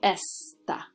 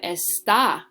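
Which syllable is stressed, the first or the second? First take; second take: first; second. First: The stress is on the first syllable. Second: The stress is on the second syllable. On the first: It means 'this'. "my emphasis is going to go on that first syllable" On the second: It means 'is'. "my emphasis is going on the second syllable"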